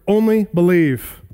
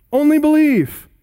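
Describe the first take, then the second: First: Said in the usual way. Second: "Only" lifted much higher and louder, "believe" falling; stress on ONLY. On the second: Shown as a demonstration. Preacher urging a grieving father, stress on "Only". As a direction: hit "Only" hard and high, then let "believe" drop. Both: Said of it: "the word only gets special emphasis".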